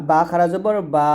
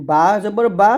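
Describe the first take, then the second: First: Final বা held long after a slow spelling; madd stretch. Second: Final বা short, vowel not held. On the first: Teacher shows learners another madd, long-held final বা. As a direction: draw out the last বা. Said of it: "তারপরে আমরা আরেকটা মাদ শিখছি". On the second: Teacher introduces another madd, first giving short বা. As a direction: keep the last বা brief. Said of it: "হরকতে তাড়াতাড়ি পড়তে হয়". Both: Shown as a demonstration.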